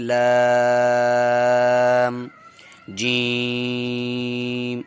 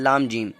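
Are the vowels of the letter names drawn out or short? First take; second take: drawn out; short. First: The vowels of both names are drawn out. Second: The vowels of both names are kept short. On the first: This is the proper way to read. The speaker calls it right. "इन हरफों के नाम खिंचते हैं" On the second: The reading is done but has no beauty. The speaker calls it wrong. "अगर हम इसको ऐसे पढ़ करके निकल जाएं"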